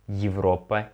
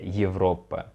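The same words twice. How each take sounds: First: The word begins with a full 'ye' sound. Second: The word begins with a sound between 'e' and 'ye'. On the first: The speaker calls it wrong. "we don't pronounce it like Европа" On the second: The speaker calls it right. "something between E and ye"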